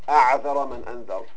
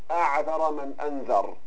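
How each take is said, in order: No difference in how they are said.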